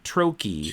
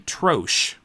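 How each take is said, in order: First: The word is given its American pronunciation. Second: The word is given its British pronunciation. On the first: "some Americans apparently pronounce it trochee" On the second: "British people say troche"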